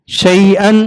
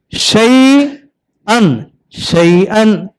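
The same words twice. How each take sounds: First: Said in the usual way. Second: Slow drawn-out demo. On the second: Shown as a demonstration. Teacher modelling शैअन slowly for the child. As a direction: drag शैअन out very slowly, syllable by syllable. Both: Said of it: "आ दन, आदन".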